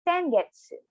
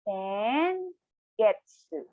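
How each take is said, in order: First: It is said at normal speed. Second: It is said slowly, syllable by syllable.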